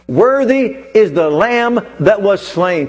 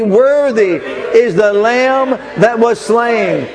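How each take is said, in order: First: Slow, louder chanted proclamation. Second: Slow, higher and louder chanted call; congregational chant. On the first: Preacher showing the congregation the chant, slow loud chant. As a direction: lead the chant slowly and loudly. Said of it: "we'll shout the chant". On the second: Preacher calling the congregation to chant along, slow loud chant. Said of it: "Can you say it with me?". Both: Shown as a demonstration.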